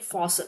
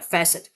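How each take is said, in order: First: The first syllable sounds like 'faw'. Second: The first syllable sounds like 'fass'. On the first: The speaker calls it wrong. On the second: The speaker calls it right.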